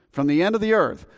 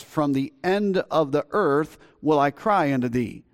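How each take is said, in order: First: "From the end of the earth" repeated higher, each word weighted; emphatic repeat. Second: Said in the usual way. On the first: Shown as a demonstration. Pastor repeating the psalm's phrase to the congregation, raised and stressed. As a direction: lean hard on the whole phrase "end of the earth".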